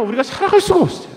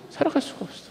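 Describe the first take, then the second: First: Said in the usual way. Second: Whispered echo. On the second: Shown as a demonstration.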